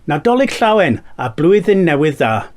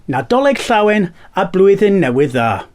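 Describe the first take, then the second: The two takes are said the same way.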